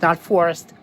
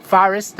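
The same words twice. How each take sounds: First: "forest" said "FOR-est" with a rounded "or"; other pronunciation. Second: "Forest" said "FAHR-est", a little louder; "Forest" with the open "ahr"; New York pronunciation. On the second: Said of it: "I love my New York accent". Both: Shown as a demonstration.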